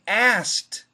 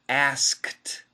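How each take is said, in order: First: It is said fast without the K sound. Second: The K sound is fully pronounced. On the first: "if we say it fast, we drop the K" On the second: "perfect pronunciation"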